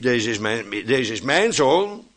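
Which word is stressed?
zoon. The stress falls on the final word. The point is what this one is. The speaker calls it wrong.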